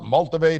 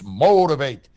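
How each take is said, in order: First: The word begins with an 'mult' sound. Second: The word begins with a 'mote' sound. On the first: The speaker calls it wrong. "it's not multivate" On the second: The speaker calls it right. "it's motivate"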